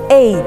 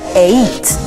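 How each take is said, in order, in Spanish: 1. Se enfatiza el sonido E. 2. Se enfatiza el sonido I. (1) "con el énfasis en la letra E sonaría eight" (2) "si le pones énfasis en la letra I, sonaría eight"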